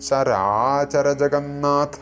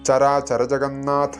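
First: The vowel after the first 'char' is long. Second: The vowel after the first 'char' is short. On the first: It means things that move and things that do not. The speaker calls it right. "ഇങ്ങനെയാണ് ജപിക്കേണ്ടത്" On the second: Both parts mean things that move. The speaker calls it wrong. "മിക്ക ആളുകളും തെറ്റിച്ചിട്ടാണ് ജപിക്കാറുള്ളത്"

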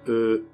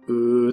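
First: The sound is short and said quietly. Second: The sound is drawn out and said loudly. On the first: The speaker is thinking and filling a pause. "ものを考えたりしているときに、この間を詰める感覚で" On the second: The speaker finds something strange. "わざとあえて大きな声で"

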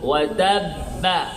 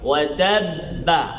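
First: The final b is followed by an 'a' vowel. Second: The final b is followed by an 'a' vowel.

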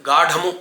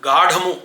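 No difference in how they are said.

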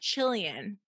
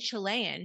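First: It is said the way a British speaker says it. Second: It is said in the speaker's own American way. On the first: The speaker calls it wrong. "she has a British accent when she speaks. ... she says Chilean" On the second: The speaker calls it right. "instead of saying Chilean"

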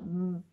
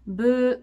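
First: It is a short, forceful burst of air. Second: It sounds like the Japanese syllable 'bu'. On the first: The speaker calls it right. "この口を閉じたまま、ブ、ブ、ブと、お腹をブ、ブと引っ込ませます" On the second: The speaker calls it wrong. "胸式のまま、ブ、ブ、どちらかというと、カタカナ発音になってしまう"

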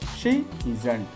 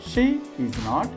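First: The last two words are joined into one. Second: All three words are said fully and separately.

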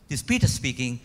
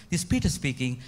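Both takes have the same delivery.

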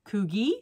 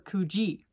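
First: The middle consonant is a hard g sound. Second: The middle consonant is a soft j sound. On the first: "Do you say Kugi" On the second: "or Kuji?"

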